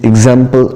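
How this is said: It is said with an American accent. "in American accent"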